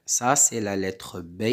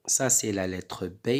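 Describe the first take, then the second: No difference in how they are said.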